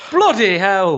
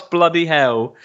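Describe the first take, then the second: First: Louder, higher Welsh bloody hell; loud Welsh accent. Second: Welsh shout of bloody hell; mock Welsh exclamation, a bit higher; Welsh accent. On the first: Retold or imitated. Host mimicking actor's loud Welsh outburst in Welsh accent. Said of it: "very loudly in a Welsh accent". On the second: Podcast host imitating actor's Welsh outburst in Welsh accent. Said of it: "in his Welsh accent".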